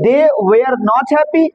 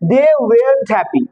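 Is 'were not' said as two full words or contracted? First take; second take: full; contracted. First: The words 'were not' are said in full. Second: The words are contracted into one syllable, 'weren't'. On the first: "ওয়্যার নট" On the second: "হয়ে যাবে ওয়েন্ট"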